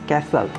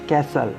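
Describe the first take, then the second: The two takes are said the same way.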